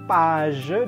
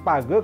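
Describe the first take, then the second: First: The G is pronounced as a soft sound. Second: The G is pronounced as a hard sound. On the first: The speaker calls it right. "bunyi lebih lembutnya" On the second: The speaker calls it wrong. "bukan page"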